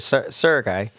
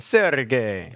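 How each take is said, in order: First: The name is said without an Italian accent. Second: The name is said with an Italian accent. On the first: "I say it like that" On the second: "I'm going to say it like an Italian"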